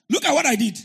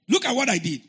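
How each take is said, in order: First: Laughing exclamation. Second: Emphatic exclamation. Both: Shown as a demonstration.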